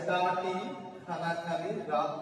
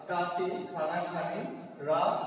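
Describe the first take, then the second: The two takes are said the same way.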